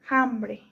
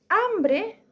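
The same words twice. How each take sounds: First: The word begins with a breathy, j-like h sound. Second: The word begins with no audible h sound. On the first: "dicen hambre" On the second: "en vez de decir hambre"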